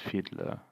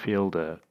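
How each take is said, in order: First: The D sound comes before the L sound. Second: The L sound comes before the D sound. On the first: The speaker calls it right. "His name's Fiedler" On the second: The speaker calls it wrong. "I keep saying Fielder"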